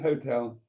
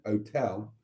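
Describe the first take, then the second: First: The H at the start is pronounced. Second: The H at the start is dropped. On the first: The speaker calls it wrong. "A hotel, incorrect" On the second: The speaker calls it right. "An hotel is correct. You shouldn't pronounce the H"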